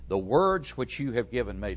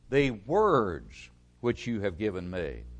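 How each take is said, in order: First: Said in the usual way. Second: WORDS stretched and hit hard, the rest dropping away; stress on WORDS. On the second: Real, not acted. Preacher repeats the verse to his congregation, stressing WORDS. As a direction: lean long and heavily on "words".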